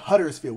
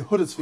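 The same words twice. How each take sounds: First: It is said with an American pronunciation. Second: It is said with an English pronunciation. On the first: The speaker calls it wrong. "Americans would usually say like Huddersfield" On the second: The speaker calls it right. "We say Huddersfield. ... We say it like them"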